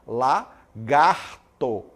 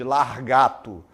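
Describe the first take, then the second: First: The r sound is in the second syllable. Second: The r sound is in the first syllable. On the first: The speaker calls it right. "Então você vai falar lagarto" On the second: The speaker calls it wrong. "Em vez de largato"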